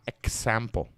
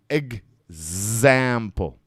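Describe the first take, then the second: First: The x is pronounced with a ks sound. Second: The x is pronounced with a gz sound. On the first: The speaker calls it wrong. "It's not going to be K S sample. See, not example" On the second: The speaker calls it right. "it's going to be a G Z sound. So it's egg"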